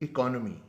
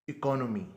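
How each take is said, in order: Both takes have the same delivery.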